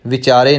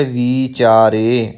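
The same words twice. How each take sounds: First: ਵਿਚਾਰੇ with a quick short "vi"; wrong short i. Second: ਵਿਚਾਰੇ said slowly as "vee-chaare"; long ee. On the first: Teacher showing what not to say, ਵਿਚਾਰੇ with short first i. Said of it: "ਵਾਵੇ ਨੂੰ ਸਿਹਾਰੀ ਲੱਗੇਗੀ". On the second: Teacher showing the correct reading, ਵਿਚਾਰੇ with long drawn "vee". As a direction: stretch the first vowel of ਵਿਚਾਰੇ into a long ee. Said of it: "ਇੱਥੇ ਬਿਹਾਰੀ ਲੱਗੀ ਹੋਈ ਹੈ". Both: Shown as a demonstration.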